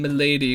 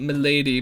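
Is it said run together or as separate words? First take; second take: run together; run together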